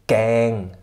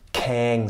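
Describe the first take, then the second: First: The first consonant is soft and voiced. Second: The first consonant has a puff of breath. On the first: "weich gesprochen falsch" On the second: "also nicht mit H"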